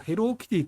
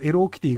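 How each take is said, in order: First: The first word begins with an h sound. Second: The first word begins with a vowel sound. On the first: "H が最初に入る" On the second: "同じ音に聞こえてしまいます"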